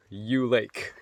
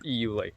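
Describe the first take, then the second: First: "U Lake" said as one letter, "you lake". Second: "E U Lake" said as two letters, "ee you lake". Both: Real, not acted. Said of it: "whatever it's pronounced".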